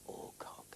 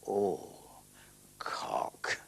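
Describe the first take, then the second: First: Both syllables are said flat and even. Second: One syllable is given suggestive emphasis. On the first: It sounds innocent on its face. The speaker calls it right. "So I flattened it" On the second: It hints at a rude double meaning. The speaker calls it wrong. "he had an idea you'd say"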